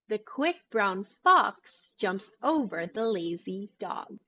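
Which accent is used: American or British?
American. It is said in a louder, higher American accent. "your mouth will appear more stretched and open"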